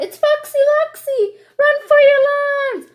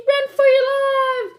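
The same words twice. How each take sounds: First: High, loud frantic yell. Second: High, loud panicked shriek. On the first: Chicken Little yelling the warning again, high and loud. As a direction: yell it out in a panic. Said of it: "So she yells out". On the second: Chicken Little warning the birds, high shriek. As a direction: shriek the name in terror. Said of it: "she shrieked". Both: Acted.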